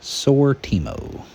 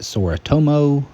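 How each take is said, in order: First: The name is said as Sortimo. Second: The name is said as Soritomo. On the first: The speaker calls it right. "It's actually called Sortimo" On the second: The speaker calls it wrong. "I mispronounced what this system is called"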